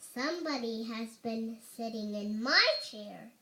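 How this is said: It is said in a middle-sized voice.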